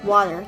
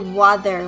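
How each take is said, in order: First: The middle consonant is a plain t sound. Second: The middle consonant is a th sound.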